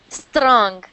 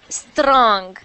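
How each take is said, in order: No difference in how they are said.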